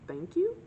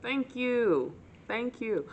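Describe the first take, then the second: First: Awkward high thank you. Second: Tight-lipped smile. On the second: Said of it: "with a very tight-lipped smile". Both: Retold or imitated.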